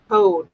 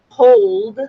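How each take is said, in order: First: The word is said with the L sound dropped. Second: The word is said with a clear L sound. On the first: "they pronounce it code" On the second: "the word hold has an L in it"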